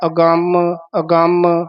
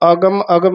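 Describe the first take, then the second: First: The m sound is doubled and held. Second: The m sound is short. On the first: The speaker calls it right. "ਜਿਵੇਂ ਬੋਲਿਆ ਅਗੰਮ ਅਗੰਮ" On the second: The speaker calls it wrong. "ਇਹ ਵੀ ਅਗਮ ਅਗਮ ਨਹੀਂ ਕਹਿਣਾ"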